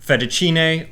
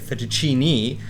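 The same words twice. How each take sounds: First: It is said with an Italian pronunciation. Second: It is said with an American pronunciation.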